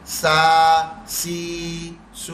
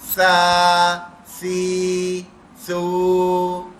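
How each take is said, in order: First: Each syllable starts with a hissing s sound. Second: Each syllable starts with a soft th sound. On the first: The speaker calls it wrong. "इसकी आवाज सीन जैसी ना निकले ... यूं नहीं निकलनी है" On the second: The speaker calls it right. "नरमी से, दांतों से जबान टच करके"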